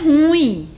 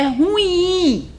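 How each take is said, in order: First: The stress is on the first syllable. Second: The stress is on the last syllable. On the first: The speaker calls it wrong. "Não é ruim" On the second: The speaker calls it right. "é ruim"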